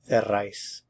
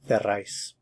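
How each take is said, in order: Both takes have the same delivery.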